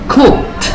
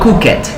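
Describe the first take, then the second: First: The ending is a short t sound. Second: The ending is an extra syllable. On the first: The speaker calls it right. "It's the sound t" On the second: The speaker calls it wrong.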